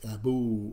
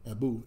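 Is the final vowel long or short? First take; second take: long; short. First: The final vowel is held long. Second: The final vowel is short. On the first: The speaker calls it right. "it's Abu. It's long, long time" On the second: The speaker calls it wrong. "It's not Abu"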